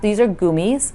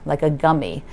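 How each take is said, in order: First: The first syllable does not sound like 'gum'. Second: The first syllable sounds like the word 'gum'. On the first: The speaker calls it right. "It is pronounced, ... if you learn to eat them in Germany, you pronounce them that way" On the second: The speaker calls it wrong. "you pronounce them like you're chewing gum"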